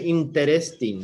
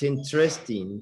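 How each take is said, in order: First: Every syllable is pronounced, including the second vowel. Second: The second vowel is dropped, leaving three syllables. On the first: The speaker calls it wrong. "you don't say interesting" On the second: The speaker calls it right. "It's interesting"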